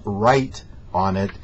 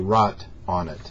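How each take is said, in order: First: The vowel glides, sounding like 'rite'. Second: The vowel is flat, sounding like 'rot'. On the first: The speaker calls it right. "W R I T E" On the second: The speaker calls it wrong. "don't say rot on it, R O T"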